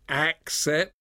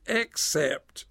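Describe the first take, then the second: First: The first vowel sounds like 'ak'. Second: The first vowel sounds like 'ek'. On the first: The speaker calls it right. "notice the word "accept."" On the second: The speaker calls it wrong. "Some people mispronounce that"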